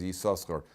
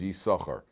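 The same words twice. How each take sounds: First: The name is said with two separate s sounds. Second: The name is said with a single s sound. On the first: The speaker calls it wrong. "some people pronounce it as Yisachar, but that's not the correct pronunciation" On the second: The speaker calls it right. "our tradition is it's pronounced as Yisachar"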